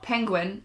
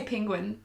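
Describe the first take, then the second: First: "penguin" with an E in the first syllable, pengwin; pengwin pronunciation. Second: "penguin" with an I in the first syllable, pingwin; pingwin pronunciation. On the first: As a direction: say "penguin" as PENG-win. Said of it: "But I also say penguin". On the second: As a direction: say "penguin" as PING-win. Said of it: "Not penguin". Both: Shown as a demonstration.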